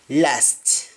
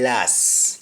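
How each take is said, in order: First: Said in the usual way. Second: "las" with no T at the end; T dropped. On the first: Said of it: "Instead of last". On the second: Shown as a demonstration. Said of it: "You don't pronounce the T".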